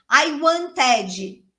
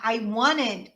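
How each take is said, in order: First: "wanted" split into syllables, T sounded and an extra "ee" after the D; Brazilian learner's pronunciation. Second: "wanted" run together as "wanned", T dropped; native pronunciation. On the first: Retold or imitated. Brazilian learner trying English, syllable-by-syllable "wanted". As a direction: say "wanted" as Brazilian "wan-teh-djee". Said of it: "tá dividindo sílaba, né? É brasileiro".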